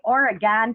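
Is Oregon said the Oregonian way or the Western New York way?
Western New York. It is said with a nasal Western New York accent.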